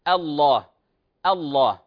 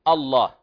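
First: The opening hamza is pronounced light. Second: The opening hamza is pronounced heavy. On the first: The speaker calls it right. "الأصل أن نقول الله" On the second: The speaker calls it wrong. "لا نقول الله"

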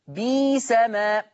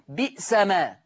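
First: The first word has a long 'ee' vowel instead. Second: The first word has a glottal stop in the middle. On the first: "هتبدل ياء" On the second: "بئس ما هتصير برضه هتبدل ياء"

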